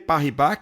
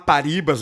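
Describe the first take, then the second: First: The name is said with a French accent. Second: The name is said with a Portuguese accent. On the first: The speaker calls it right. "vou caprichar no francês aqui" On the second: The speaker calls it wrong. "Vai ter gente que vai falar Paribas, mas não é isso não"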